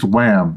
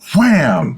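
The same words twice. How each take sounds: First: It is said flatly, without energy. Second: It is said with lively enthusiasm.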